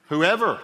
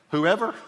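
First: "Whoever." falling firmly, higher and louder; emphatic whoever. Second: "Whoever?" rising high like a question. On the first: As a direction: land "Whoever." as a declaration. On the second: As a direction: ask "Whoever?" with a lift. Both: Shown as a demonstration.

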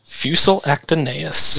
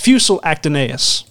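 First: "Fusel Actinius" repeated slowly as "FYOO-sel ak-tuh-NAY-us", rising like a question; slow, careful echo of "Fusel Actinius", ending in a rise; fake foreign language. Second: "Fusel Actinius" read out as "FYOO-sel ak-tuh-NAY-us", stress on FYOO, falling at the end; first reading of "Fusel Actinius", stressed on "Fusel" and falling; fake foreign language. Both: Shown as a demonstration. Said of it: "fake language".

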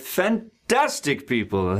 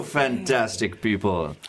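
First: Said in the usual way. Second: Fantastic slowed, its middle syllable TAS leaned on; stress on fan-TAS-tic. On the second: Shown as a demonstration. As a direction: drag out fantastic with weight on TAS. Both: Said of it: "emphasis on that syllable".

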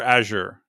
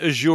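First: "Azure" as AZH-er; second option, "Azure" with a weak -er ending; first-syllable stress. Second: "Azure" as a-ZHOOR; first option, "Azure" with a long OOR ending; second-syllable stress. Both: Shown as a demonstration. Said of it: "Do you pronounce it Azure or Azure?".

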